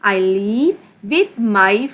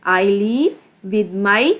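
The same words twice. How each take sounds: The two takes are said the same way.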